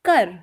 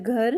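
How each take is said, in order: First: The word begins with a plain 'k' sound. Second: The word begins with a breathy 'gh' sound. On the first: This is the Punjabi pronunciation. "इसको पंजाबी में बोलते हैं कर" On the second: This is the Hindi pronunciation. "Hindi में बोला जाता है घर"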